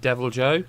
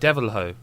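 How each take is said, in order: First: The name ends with a J sound, like Joe. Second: The name ends with an H sound, like Ho. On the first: Someone else says it this way. "Mick Fraser pronounces him Devil Joe" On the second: The speaker assumed it was said this way. "presumed it was like Devil Ho"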